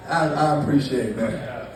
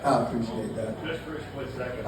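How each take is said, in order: First: Said in the usual way. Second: Quieter repeat. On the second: Real, not acted. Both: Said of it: "thanking the laughing woman".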